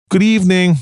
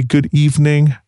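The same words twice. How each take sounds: First: Pitched up, mocking the demand. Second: Said in the usual way. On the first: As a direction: sing it back with a sneer. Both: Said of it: "Shonda said mockingly".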